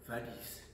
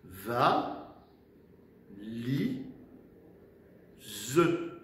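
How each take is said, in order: First: Said in the usual way. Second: « Va, li, ze » with a long pause after each beat; split into syllables. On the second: Shown as a demonstration. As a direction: dictate « Va, li, ze » one syllable at a time. (« Va, li, ze » découpé en trois syllabes) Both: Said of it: "il y a trois syllabes".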